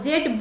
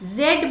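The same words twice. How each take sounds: First: The letter name begins with a j sound. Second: The letter name begins with a z sound. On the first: The speaker calls it wrong. "जेड बोल देते हैं, तो ये नहीं बोलना है" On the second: The speaker calls it right. "जेड बोलना है"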